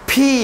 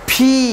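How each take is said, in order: The two takes are said the same way.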